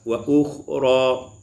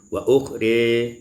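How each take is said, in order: First: The final vowel is a plain open a. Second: The final vowel leans toward an e sound.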